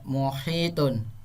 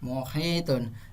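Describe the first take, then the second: First: The word ends smoothly with a final -tun. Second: The same.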